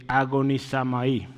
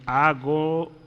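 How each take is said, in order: First: "agonizamai" with an A in place of the O before "mai"; slip with A for O. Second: Careful, halting "agonizomai" in separate chunks; corrected, syllable by syllable. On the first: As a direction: say "agonizamai" in one go, ending "sa-mai". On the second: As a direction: spell out "agonizomai" by sound, with pauses and an O before "mai". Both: Shown as a demonstration. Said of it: "Perdón, agonizomai".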